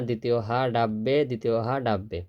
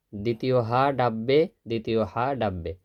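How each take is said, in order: Both takes have the same delivery.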